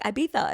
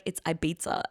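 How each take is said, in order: First: "Ibiza" said Ibitha, with a th; lisped pronunciation. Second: "Ibiza" said Ibeetsa, with a ts; boyfriend's pronunciation. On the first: Retelling argument with boyfriend, lisped "Ibiza". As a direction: insist on a th for the z in "Ibiza". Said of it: "that's how they say it". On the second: Quoting boyfriend's correction, "Ibiza" with a ts. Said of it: "And he's like". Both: Retold or imitated.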